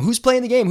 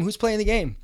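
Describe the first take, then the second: First: Mock reporter voice, higher and louder; a shrill-ish hounding newsman, imitated; pushy reporter. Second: Imitated reporter asking once more; pushy reporter, easing off. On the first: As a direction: jab the question like a pushy reporter. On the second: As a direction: repeat the question, slightly deflated. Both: Reporters crowding the hapless guy.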